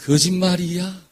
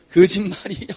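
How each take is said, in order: First: Said in the usual way. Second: Sung line. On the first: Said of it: "한번 따라해보세요". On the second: Shown as a demonstration. Preacher sings the song line to the church, lightly sung. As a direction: sing 거짓말이야 as the tune of a known song. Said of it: "그런 노래 있죠?".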